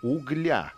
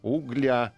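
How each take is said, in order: First: The stress is on the last syllable. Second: The same.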